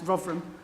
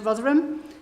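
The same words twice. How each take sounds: First: Some consonants in the word are dropped. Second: Every consonant in the word is pronounced. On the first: The speaker calls it right. "I need to reduce the number of consonants in it" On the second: The speaker calls it wrong. "which I am reliably informed I'm saying wrong"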